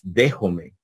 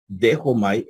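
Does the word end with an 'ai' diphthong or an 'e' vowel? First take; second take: e; ai. First: The word ends with a plain 'e' vowel. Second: The word ends with an 'ai' diphthong.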